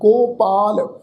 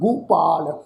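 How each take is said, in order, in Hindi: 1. पहले अक्षर में स्वर 'o' है। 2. पहले अक्षर में स्वर 'u' है। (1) "ਅਸਲ ਜਿਹੜਾ ਸ਼ਬਦ ਆ ਉਹ ਸ਼ਬਦ ਆ ਜੀ ਹੋੜੇ ਦੀ ਮਾਤਰਾ ਨਾਲ" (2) "ਗੱਗੇ ਦੇ ਪੈਰ ਵਿੱਚ ਔਂਕੜ ਦੀ ਮਾਤਰਾ ਹੈ ਉਸ ਦਾ ਉਚਾਰਨ ਕਰਨਾ ਹੁੰਦਾ ਹੈ"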